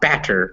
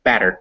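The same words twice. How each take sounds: First: The middle consonant is a full, crisp t. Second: The middle consonant is a quick d-like flap. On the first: The speaker calls it wrong. "Not batter" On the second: The speaker calls it right. "it just comes up and out as fast as it can"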